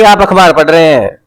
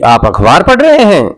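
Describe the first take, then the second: First: It sounds like a flat statement. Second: It sounds like a question.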